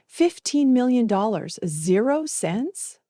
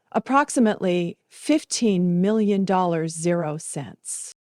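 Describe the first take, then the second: First: Higher, slow, disbelieving repeat rising at the end; stunned echo. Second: A hint of a measured lawyer, slowing on zero cents; lightly voiced attorney. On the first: Acted. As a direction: say it back as if you can't believe your ears. Narrator echoes the sum in shock. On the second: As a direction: state the sum calmly, like reading a figure off a file. Attorney announces the inheritance.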